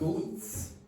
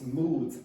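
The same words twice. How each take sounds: First: The word ends in an unvoiced s sound. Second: The word ends in a vibrating z sound. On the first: The speaker calls it wrong. "It's not moods" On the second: The speaker calls it right. "it's moods. And the reason is this is vibrated, so that one will be vibrated"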